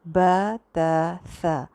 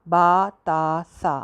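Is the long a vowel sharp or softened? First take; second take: softened; sharp. First: The long a is softened and slightly leaning. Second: The long a is sharp, with a wide-open mouth. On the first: The speaker calls it right. "थोड़ा झुका झुका सा पढ़ना है" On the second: The speaker calls it wrong. "इसका जो अलिफ है उसको तीखा सीधा नाइन्टी के एंगल पे नहीं पढ़ना ... ऐसे नहीं पढ़ना"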